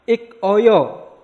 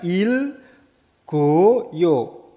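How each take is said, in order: First: Ik oyo said split apart, high and loud; separate syllables. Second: Il goyo said joined; linked pronunciation. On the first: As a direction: break it as ik, oyo. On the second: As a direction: link it as il goyo. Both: Shown as a demonstration. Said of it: "maka dibacanya".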